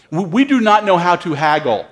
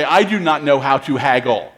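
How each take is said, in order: First: Said in the usual way. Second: I pressed a little, self-correcting; stress on I. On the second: Shown as a demonstration. Preacher correcting we to I, stress on I. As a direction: lean on I as the correction. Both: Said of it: "Or maybe I should say".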